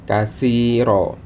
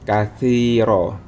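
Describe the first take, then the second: First: The middle consonant is a soft 'th' sound. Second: The same.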